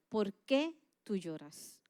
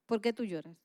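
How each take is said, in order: First: A lightly voiced God speaking to the heart; gentle voice of God. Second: Said in the usual way. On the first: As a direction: ask it slowly and tenderly, as God. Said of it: "Dios habló a mi corazón y me decía". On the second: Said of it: "me decía".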